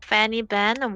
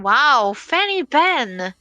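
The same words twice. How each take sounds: First: Said in the usual way. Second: High, drawn-out excited call. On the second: Real, not acted. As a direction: stretch it out in delight. Caster reacts to surprise ban.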